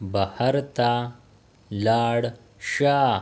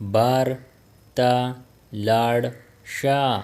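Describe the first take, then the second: First: The first word is said in full as bahar. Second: The first word is shortened to bar. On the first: This is the full careful form. "बाहर will become बार" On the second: This is how native speakers say it. "बाहर will become बार"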